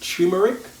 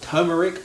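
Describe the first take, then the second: First: The first syllable sounds like 'tyoo'. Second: The first syllable sounds like 'ter'. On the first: This is the speaker's own way of saying it. "I pronounce it personally" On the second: This is how other people say it. "some people pronounce it"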